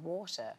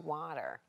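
First: It is said with a British accent. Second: It is said with an American accent.

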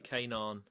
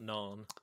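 First: The initial K sound is pronounced. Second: The initial K sound is silent. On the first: The speaker calls it right. "it's actually K-Naan" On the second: The speaker calls it wrong. "not Naan"

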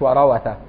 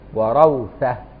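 First: The waw after ra carries a vowel. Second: The waw after ra carries no vowel. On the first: The speaker calls it wrong. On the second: The speaker calls it right.

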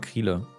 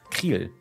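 First: The name ends with a sounded final vowel. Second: The name ends on the consonant, final vowel silent. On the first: "ich sag immer Kriele" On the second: "das E ist stumm"

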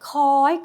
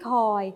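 First: The syllable is said with a high tone. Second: The syllable is said with a mid tone. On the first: "เสียงตรี" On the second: "สามัญ"

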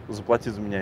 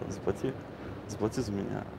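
First: It is said in a plain, flat tone. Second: It is said in a light, playful tone. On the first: The request sounds stingy and needy. The speaker calls it wrong. "ты просто делаешь это" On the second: The request sounds charming and flirtatious. The speaker calls it right. "надо игриво говорить"

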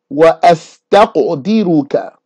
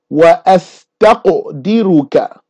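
First: The q has an echoing bounce after it. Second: The q has an echoing bounce after it.

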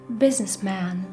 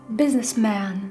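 No difference in how they are said.

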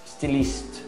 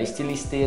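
First: The word starts directly with an s sound. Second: The word starts with an extra e sound. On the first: The speaker calls it right. "começa com S, hein? Não é com E" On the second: The speaker calls it wrong. "Não é estiliste, não"

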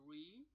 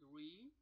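First: It is pronounced the English way. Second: The same.

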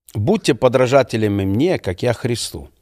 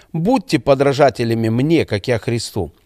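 No difference in how they are said.

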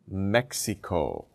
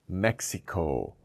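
Both takes have the same delivery.

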